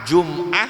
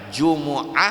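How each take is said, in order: First: The word has no vowel between m and the glottal stop. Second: The word has a vowel between m and the glottal stop. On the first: "itu boleh dibaca" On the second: "Jadi Jumat itu bisa tiga dibaca"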